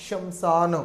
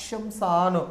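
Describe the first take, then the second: The two takes are said the same way.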